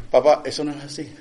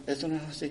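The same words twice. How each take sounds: First: A touch of the son's sarcasm, said straight; sarcastic son quote. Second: Softer mocking mimic with the mouth half open; lightly ape the son's half-open-mouth retort. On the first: Retold or imitated. Son correcting his dad, with mild sarcasm. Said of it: "con sarcasmo". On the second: Pastor aping his son's retort, mouth half open, softer. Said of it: "pone la boca entreabierta y se la hace".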